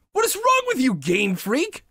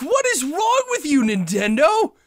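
First: Crying out again, leaning on wrong; shouting through real tears; teary shout. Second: High, loud tearful protest with the stress on what; crying out at the game makers, stressing what; shouting through real tears; teary shout. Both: Real, not acted. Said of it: "I'm tearing up".

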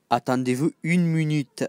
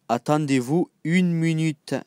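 Both takes have the same delivery.

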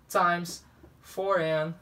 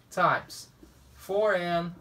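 The two takes are said the same way.

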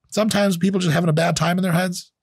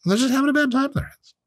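First: Said in the usual way. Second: Much higher, fast put-on squeak; high mock voice. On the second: Mocking the critics with a silly high, fast voice. Repeats the line in another voice.

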